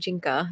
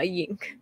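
First: The name begins with a J sound. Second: The name begins with a Y sound. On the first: The speaker calls it right. "it's pronounced Jinka" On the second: The speaker calls it wrong. "Not yink"

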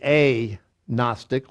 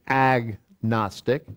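First: The first syllable is split off before the rest. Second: The word is said smoothly as one unit. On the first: The word is a prefix meaning no plus the root for knowledge. "But it's literally a gnostic" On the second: This is the usual everyday pronunciation. "we pronounce it agnostic"

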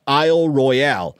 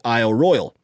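First: First word English, second word French pronunciation. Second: Both words are pronounced the English way. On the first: "making the first word English and the second word French" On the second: "If you want to make it English"

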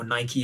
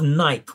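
First: It has the American pronunciation, ending in ee. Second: It has the British pronunciation, rhyming with bike.

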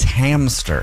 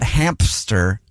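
First: No p sound is heard after the m. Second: A p sound is heard after the m. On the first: The speaker calls it right. "Like a ham and stir" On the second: The speaker calls it wrong. "It's not hamster"

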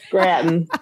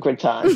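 First: The word is said with an upstate American pronunciation. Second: The word is said with a French pronunciation. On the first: "that sounds like you're from Rochester... That's what they would say" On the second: "Do you lean into the French pronunciation? Of course I do"

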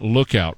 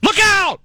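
First: The word is said calmly at normal volume. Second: The word is shouted loudly like a warning. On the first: The speaker calls it wrong. "you're mispronouncing that word" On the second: The speaker calls it right. "all in caps"

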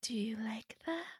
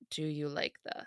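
First: It is said in a creepy child's voice. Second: It is said in the speaker's normal voice.

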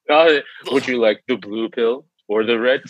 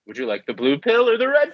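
First: He speaks in a put-on, deeper imitation voice. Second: He speaks in his ordinary everyday speaking voice. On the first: "That wasn't even your normal speaking voice" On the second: "Give it to me in your normal fucking speaking voice"

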